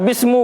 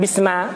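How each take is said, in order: First: The word ends with a u vowel. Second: The word ends with an a vowel. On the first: "Atau bismu, bukan juga" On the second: "bukan bisma"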